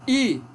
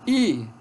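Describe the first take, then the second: No difference in how they are said.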